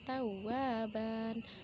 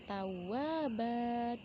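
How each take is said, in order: First: The word ends with an n sound. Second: The word ends with a lengthened vowel. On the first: The speaker calls it wrong. "Tidak kita baca tawwaban" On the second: The speaker calls it right. "dipanjangkan dua dan dihilangkan uh, bunyi fathatainnya"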